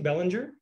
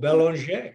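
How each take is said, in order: First: The surname is said with English-style sounds. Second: The surname is said with French-style sounds. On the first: The speaker calls it wrong. "Do I say that correctly" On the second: The speaker calls it right. "French. it sounds more beautiful"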